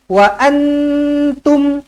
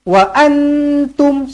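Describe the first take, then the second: No difference in how they are said.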